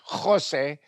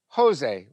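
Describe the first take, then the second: First: The name begins with a guttural ch sound. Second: The name begins with a plain H sound. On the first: "they don't say Jose" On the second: "they say Jose, where the H and the guttural ch, cha uh, are interchangeable because Americans can't say the cha"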